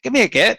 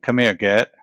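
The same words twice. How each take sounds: First: It is said in a put-on Hobbit voice. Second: It is said in his normal voice.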